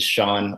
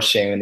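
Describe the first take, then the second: First: The name has an American pronunciation. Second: The name has a Nigerian pronunciation. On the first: This is the name he goes by. "I'm American as well, so I go by Sean" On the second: This is the name's original form. "Seun is the Nigerian pronunciation"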